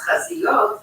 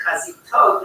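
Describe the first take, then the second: First: Chaziyot said the proper way, as the Hebrew word for fronts; correct Hebrew word. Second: Chazitot said with a t sound where chaziyot has a y; wrong Hebrew word. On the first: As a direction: say chaziyot, with a y sound in the middle. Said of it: "instead of the word for fronts". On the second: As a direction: say chazitot, the mistaken word that means bras. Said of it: "they said chazitot". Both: Shown as a demonstration.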